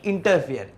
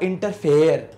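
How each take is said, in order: First: The last syllable sounds like 'fear'. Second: The last syllable sounds like 'fair'. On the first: The speaker calls it right. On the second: The speaker calls it wrong.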